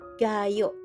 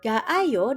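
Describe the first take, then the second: First: The vowels are merged quickly into one syllable. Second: The vowels are said separately, in two parts.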